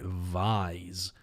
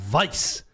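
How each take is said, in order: First: The name sounds like the start of visor. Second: The name sounds like the word vice. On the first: The speaker calls it wrong. "Who the fuck's pronouncing it Vise? Like a visor?" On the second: The speaker calls it right. "It's Vice"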